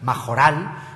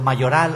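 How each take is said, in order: First: The middle consonant is a harsh throaty jota. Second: The middle consonant is a soft y sound. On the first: "es una jota castellana que me cuesta trabajo pronunciar" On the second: "He pronunciado mayoral"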